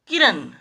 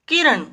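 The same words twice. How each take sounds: First: किरण ending in a dental "n"; किरण said as किरन; mispronounced. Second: किरण with retroflex final ण; किरण ending in ण, not न; correct retroflex ण. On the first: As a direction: end किरण on न, not ण. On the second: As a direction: curl the tongue for the end of किरण. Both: Shown as a demonstration. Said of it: "किरण नहीं".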